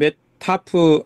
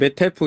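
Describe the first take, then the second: First: The F merges into one word with an 'a' vowel. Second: The F merges into one word with an 'e' vowel. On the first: "영어를 그대로 그러면 메타프" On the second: "아니면 메테프 이렇게 발음해야 될 것 같습니다"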